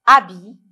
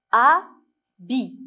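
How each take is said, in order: First: Said in the usual way. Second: "Habit" read as A, long pause, BI; syllable by syllable. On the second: Shown as a demonstration. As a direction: split "Habit" into two separate beats. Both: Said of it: "on va lire ensemble les mots".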